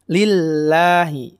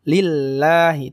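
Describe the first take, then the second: First: The L sound is light and thin. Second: The L sound is light and thin.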